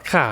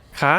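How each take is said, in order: First: คะ said falling instead of high; wrong falling tone. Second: คะ rising high at the end. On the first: Teacher showing what not to say, falling tone on คะ. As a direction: let คะ drop in pitch. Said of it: "It's not, it's not a". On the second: Teacher correcting the question particle, high rising tone on คะ. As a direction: send คะ upward like a question. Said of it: "It goes high". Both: Shown as a demonstration.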